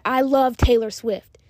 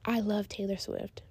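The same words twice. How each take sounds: First: Loud, slow, punched out; aggressive. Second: Flat monotone, slow. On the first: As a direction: bark it at them. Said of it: "that sounds aggressive". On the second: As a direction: say it with no life. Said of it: "that sounds like a monotone". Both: Shown as a demonstration.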